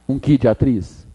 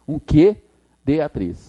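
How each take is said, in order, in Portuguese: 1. A palavra que é fraca e átona. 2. A palavra que é forte e tônica. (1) "Você acha que ficou bom? ... Não" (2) "Então tem que ser que. Então tem que ter o acento"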